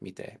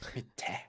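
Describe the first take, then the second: First: The t is said plainly, without extra breath. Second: The t has a strong puff of breath, like Fua-chan.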